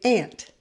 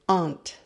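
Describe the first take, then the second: First: The word is said with an American accent. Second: The word is said with a British accent. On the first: "in the States, we say ant" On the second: "In British English, they say aunt"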